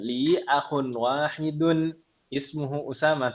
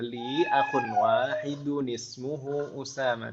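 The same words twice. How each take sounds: First: There is a stop after wahidun. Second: Wahidun runs straight into ismuhu with an added vowel. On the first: "Paksakan berhenti" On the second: "Kalau disambung jadi ada nun wiqayahnya"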